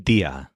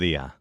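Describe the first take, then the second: First: The D is fully pronounced with a firm stop. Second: The D is soft, almost like an L. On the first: "in the first case, it sounded correct and normal" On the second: "in the second case, the D was softened"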